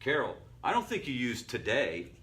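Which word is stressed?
today. The word today is stressed.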